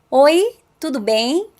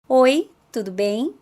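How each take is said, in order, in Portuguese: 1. É falada mais alto, projetada para ir longe. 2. É falada em volume normal, mais baixo.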